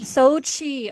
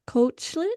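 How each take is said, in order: First: The name begins with an S sound. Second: The name begins with a K sound. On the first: The speaker calls it right. "That was way easier than what I just did" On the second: The speaker calls it wrong. "I'm not going to pronounce this right at all"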